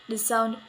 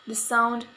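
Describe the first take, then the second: No difference in how they are said.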